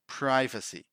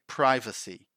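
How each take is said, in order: First: The first syllable rhymes with 'five'. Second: The same.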